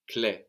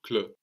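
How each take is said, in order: First: "clé" ending in a clear "ay"-like French é; accented E sound. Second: "cl" ending in a neutral "uh"; unaccented E, wrong version. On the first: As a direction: say "clé" with the accented E, like "klay" without a glide. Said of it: "clé has the E with the accent on it". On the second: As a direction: say "cl" as "kluh", as if the E had no accent. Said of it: "we hear clé rather than cl". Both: Shown as a demonstration.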